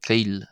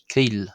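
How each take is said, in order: First: The vowel is a long 'ee' sound. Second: The vowel is a long 'ee' sound.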